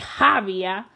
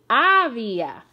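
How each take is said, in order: First: The word begins with an audible h sound. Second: The word begins with a silent h. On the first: The speaker calls it wrong. "We don't say había" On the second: The speaker calls it right. "la H no suena en español. We say había"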